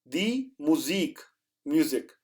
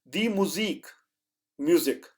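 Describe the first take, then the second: No difference in how they are said.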